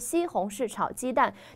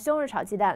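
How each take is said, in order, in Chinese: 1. 是用标准普通话仔细说的。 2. 是用北京口音快速说的。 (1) "非常标准的发音" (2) "说快，说成比如说北京话"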